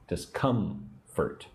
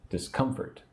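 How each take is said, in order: First: Discomfort slow and softer, split in syllables. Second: Said in the usual way. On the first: Shown as a demonstration. Teacher drilling emphasis on syllable two, Discomfort slowly split. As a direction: break Discomfort slowly apart, leaning on COM. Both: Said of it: "Put the emphasis on syllable two".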